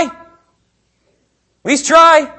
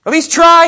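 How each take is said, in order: First: "At least try" stretched very slowly, high and loud; drawn-out plea. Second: Urging. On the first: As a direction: drag out "try" like a pleading sigh. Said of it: "repeated, drawn out". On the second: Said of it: "repeated for emphasis". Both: Shown as a demonstration.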